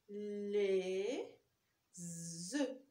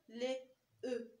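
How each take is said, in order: First: The words are joined by a linking z sound. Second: The words are said without a linking z sound. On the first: The speaker calls it right. "Il faut faire la liaison" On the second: The speaker calls it wrong. "on ne peut pas dire les E. Non"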